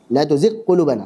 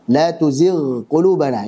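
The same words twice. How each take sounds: First: The gh sound is hidden or merged into q. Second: The gh sound is pronounced clearly and separately. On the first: The speaker calls it wrong. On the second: The speaker calls it right. "Harus izhar"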